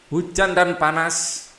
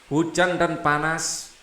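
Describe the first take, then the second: No difference in how they are said.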